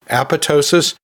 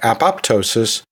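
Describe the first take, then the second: First: The second p sound is left silent. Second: The second p sound is clearly pronounced. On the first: "where the second P is silent" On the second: "where both P's are pronounced"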